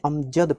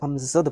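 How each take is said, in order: First: The middle consonant is a plain j sound. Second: The middle consonant is a z sound. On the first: "इसमें नुक्ता नहीं लगा हुआ इसीलिए इसे अमजद पढ़ेंगे" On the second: "अगर यहाँ नुक्ता लगा रहता तो उसे अमजद पढ़ा जाता"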